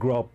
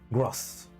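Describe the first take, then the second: First: The name ends with a B sound. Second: The name ends with an S sound. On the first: The speaker calls it wrong. "it's not Grub like a B" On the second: The speaker calls it right. "it's like S, zeta zeta S, like gross"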